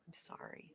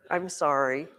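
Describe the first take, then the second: First: A soft whispered sorry; whispered apology. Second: Said in the usual way. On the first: Real, not acted. Teacher whispering an apology to the student Matthias, unvoiced.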